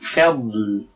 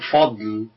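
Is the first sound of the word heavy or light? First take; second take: light; heavy. First: The first f sound is light and thin. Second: The first f sound is heavy and thick. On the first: The speaker calls it right. "لكن صعب عليه إنه يقول فضل" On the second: The speaker calls it wrong. "الضاد حرف مفخم فسهل إنه يقول فضل"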